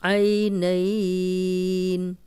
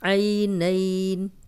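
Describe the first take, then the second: First: The vowel is held for four counts. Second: The vowel is held for two counts.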